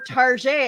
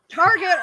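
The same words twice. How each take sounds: First: The name is said in a fancy-sounding way. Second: The name is said the plain, ordinary way. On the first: The sayer wants to seem sophisticated. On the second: It is the usual way of saying the name.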